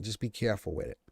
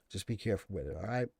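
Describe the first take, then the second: First: Said in the usual way. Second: "Just be careful with it" dropped much softer; quiet, confiding second warning; hushed aside to viewers; soft repeat. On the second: Real, not acted.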